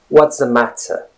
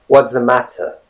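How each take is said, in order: No difference in how they are said.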